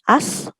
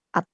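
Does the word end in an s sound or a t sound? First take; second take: s; t. First: The word ends with an s sound. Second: The word ends with a t sound. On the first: The speaker calls it wrong. "bukan as" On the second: The speaker calls it right. "tapi at"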